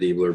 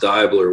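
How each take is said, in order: First: The first vowel sounds like 'ee'. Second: The first vowel sounds like 'eye'. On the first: This is how most people say the name. "we know that's kind of what it looks like" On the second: This is the name's original German pronunciation. "which is like the German pronunciation. ... it's a hard I"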